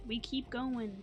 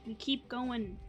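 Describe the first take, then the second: No difference in how they are said.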